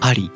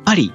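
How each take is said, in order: First: It is said restrained, with a classy tone. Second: It is said plainly, without restraint.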